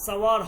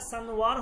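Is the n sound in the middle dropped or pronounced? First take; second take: dropped; pronounced. First: The n sound is dropped before the w. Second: The n sound is pronounced before the w. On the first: "অনেক সময় নুন উচ্চারণ হয় না" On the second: "অনেক সময় নুন উচ্চারণ হয়"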